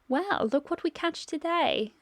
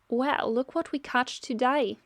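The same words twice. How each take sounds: First: It is spoken in a British accent. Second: It is spoken in an Australian accent. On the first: The speaker calls it right. "Shira is supposed to have a British accent" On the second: The speaker calls it wrong. "That was an Australian accent"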